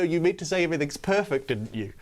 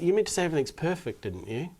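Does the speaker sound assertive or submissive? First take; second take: assertive; submissive. First: It sounds pushy and assertive. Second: It sounds meek and submissive.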